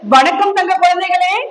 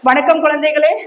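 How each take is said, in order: First: The greeting is lively with varied pitch. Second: The greeting is dull and flat. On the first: The children enjoy listening. The speaker calls it right. "நான் அதே mimicry பண்ணுவேன், நான் voice modulation பண்ணுவேன்" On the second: The storyteller is unwell that day. The speaker calls it wrong. "மறுநாள் எனக்கு ஏதோ உடம்பு சரியில்லை, அந்த டோன் நான் மாத்துறேன்"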